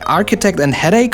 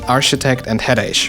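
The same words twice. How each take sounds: First: The 'ch' is said as a 'k' sound. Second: The 'ch' is said like in 'rich'. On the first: The speaker calls it right. "That's K?" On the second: The speaker calls it wrong. "Ch, right? Like in rich or champ"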